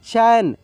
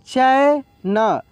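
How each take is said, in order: First: Said in the usual way. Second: Drawn-out reading. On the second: Shown as a demonstration. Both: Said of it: "slow then normal reading".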